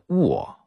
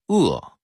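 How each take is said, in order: First: The syllable is pronounced wo. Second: The syllable is pronounced e. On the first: "定性话念卧" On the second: "饿了的饿"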